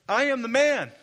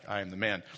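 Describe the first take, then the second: First: It is said in a boastful, bragging way. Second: It is said in a plain, identifying way. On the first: The speaker claims to be impressive. The speaker calls it wrong. "Not like that" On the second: The speaker is the person being discussed. The speaker calls it right. "I'm the guy you're talking about"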